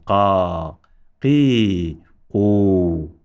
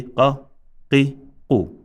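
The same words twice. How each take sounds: First: "Qa, qi, qu" with each vowel held long, a gap between; extended vowels. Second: "qa, qi, qu" as brief syllables with gaps; short, unextended vowels. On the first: Teacher modelling extension, "Qa, qi, qu" drawn out long. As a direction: draw out each of "Qa, qi, qu" separately. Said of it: "Here we have extension". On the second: Teacher modelling no extension, "qa, qi, qu" said short. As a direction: cut each vowel short in "qa, qi, qu". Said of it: "So here we say". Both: Shown as a demonstration.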